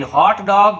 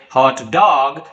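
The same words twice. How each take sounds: First: Hot dog with HOT high and stressed. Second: Hot dog with the weight on DOG; stress on DOG. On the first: Teacher contrasting the food meaning, stress on hot. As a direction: lift hot in hot dog, dog unstressed. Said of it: "the stress of the first word". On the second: Teacher meaning a dog that is hot, stress on dog. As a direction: keep hot light and land on dog in hot dog. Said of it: "stress is given on the second part". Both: Shown as a demonstration.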